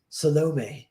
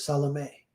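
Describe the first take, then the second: First: Salome said suh-LO-may, middle syllable stressed; misplaced stress on Salome. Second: Salome said SAL-uh-may, first syllable stressed; correct stress on Salome. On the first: Actress flubs her take, Salome as suh-LO-may. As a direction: punch the LO in Salome. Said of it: "putting the wrong emphasis on the wrong syllable". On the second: The scripted line as intended, Salome as SAL-uh-may. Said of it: "wrong emphasis on the wrong syllable". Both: Retold or imitated.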